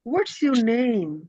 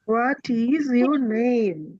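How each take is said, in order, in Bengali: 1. "What is" এক সিলেবলে সংকুচিত করে বলা হয়। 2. "What is" দুটো পূর্ণ শব্দ হিসেবে বলা হয়। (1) "আরেকটু সুন্দরভাবে বলতে চাই" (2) "এখন আমরা কিন্তু এইভাবে বলতে পারি"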